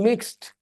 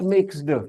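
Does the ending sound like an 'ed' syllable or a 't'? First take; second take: t; ed syllable. First: The ending is a short t sound. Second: The ending is a separate ed syllable. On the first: The speaker calls it right. "I am saying mixed" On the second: The speaker calls it wrong. "not mixed"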